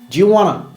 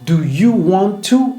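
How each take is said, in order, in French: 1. Les mots s'enchaînent en un seul flux réduit. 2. Chaque mot est prononcé séparément et en entier.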